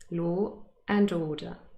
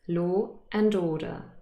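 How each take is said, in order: First: A glottal stop separates law from a fuller 'and'. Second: The same.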